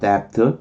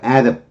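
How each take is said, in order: First: The first vowel is dropped entirely. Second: The first vowel is pronounced and stressed. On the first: "발음 안 해도 돼요" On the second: "발음을 하려면 강세를 줄 때 하는 거예요"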